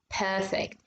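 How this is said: The R after the first vowel is dropped. "So they make it smoother"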